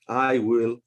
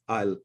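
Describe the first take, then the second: First: It is said as two full separate words. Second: It is said as one contracted syllable. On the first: The speaker calls it wrong. "we don't say I will practice" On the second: The speaker calls it right. "We say I'll"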